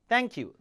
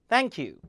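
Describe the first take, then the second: No difference in how they are said.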